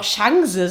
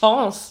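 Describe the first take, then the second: First: It is said with a Berlin accent. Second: It is said with a standard accent.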